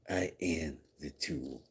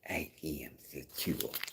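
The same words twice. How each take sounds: First: It is said in a plain, normal voice. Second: It is said in a put-on lisping voice.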